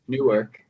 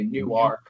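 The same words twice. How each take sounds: First: It is said the New Jersey way. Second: It is said the local Delaware way. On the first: "instead of Newark, like Newark, New Jersey" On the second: "they're very particular about the way they pronounce ... They say Newark"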